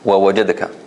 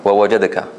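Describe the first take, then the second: The two takes are said the same way.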